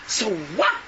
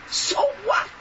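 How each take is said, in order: First: Said in the usual way. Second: "what" thrown up high in scorn; a defiant retort to the listeners; scoffing so what. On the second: Acted. Preacher dismissing an objection.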